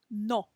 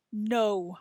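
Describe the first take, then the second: First: Pure Spanish "no" with round lips and no glide; "no" with a clean, unchanging O. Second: English "No." ending in a w-glide; "No." as in English, lips closing at the end. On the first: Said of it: "That's Spanish". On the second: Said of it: "see if you can hear if I'm saying this in". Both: Shown as a demonstration.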